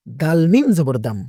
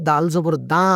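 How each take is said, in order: First: দাল মিম জবর দাম, closing the syllable on m; joined-letter spelling. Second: দাল জবর দা with an open "da", no closing m; incorrect spelling-out. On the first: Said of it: "লাগাই দিয়ে পড়তে হবে". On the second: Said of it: "এটা বলা যাবে না". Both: Shown as a demonstration.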